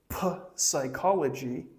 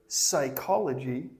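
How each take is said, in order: First: The p at the start is pronounced. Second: The p at the start is silent. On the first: The speaker calls it wrong. "Don't say" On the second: The speaker calls it right.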